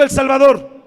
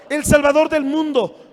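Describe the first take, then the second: First: Loud, ringing call for the congregation to echo; call and response. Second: Said in the usual way. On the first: Shown as a demonstration. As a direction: lead them in a big shout of "El Salvador" with the pitch dropping hard on the last word. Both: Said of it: "Diga conmigo".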